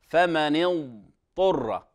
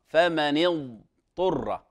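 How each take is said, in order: No difference in how they are said.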